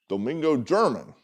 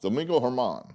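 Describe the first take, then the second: First: The surname begins with a hard G sound. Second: The surname begins with an H sound. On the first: The speaker calls it wrong. "That doesn't sound right" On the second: The speaker calls it right. "Sounds right"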